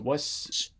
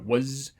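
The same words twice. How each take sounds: First: The final consonant is a voiceless hissing s. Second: The final consonant is a voiced buzzing z. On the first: "but it's a was" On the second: "you normally think you'd hear a was"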